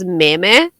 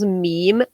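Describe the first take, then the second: First: It is said like a Japanese word. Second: It is said with the usual English pronunciation.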